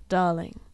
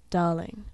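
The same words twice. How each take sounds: The two takes are said the same way.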